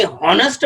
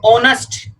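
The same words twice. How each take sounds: First: हॉनेस्ट said with a clear breathy h at the start; wrong sounded h. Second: ऑनेस्ट said with no h, opening straight on aw; silent h in honest. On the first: Teacher demonstrating the wrong हॉनेस्ट with an h. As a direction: sound the h in हॉनेस्ट to show the error. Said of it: "honest is a wrong pronunciation". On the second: Teacher showing the right way to say ऑनेस्ट. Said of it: "इसको हम बोलते हैं ऑनेस्ट". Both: Shown as a demonstration.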